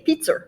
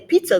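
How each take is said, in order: First: It is said in a Boston accent, with an added R. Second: It is said in a standard accent, without an added R.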